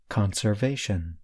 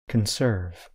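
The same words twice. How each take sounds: First: Conservation with a strong first syllable con- and a lighter -va-, softly falling; stress on the first part. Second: Conserve with the beat on -serve, first syllable light, falling; stress on the second part. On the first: Teacher modelling the noun for listeners: Conservation stressed on con-. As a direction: open Conservation with a firm con-, easing off toward the end. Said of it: "I stress the first part of the word".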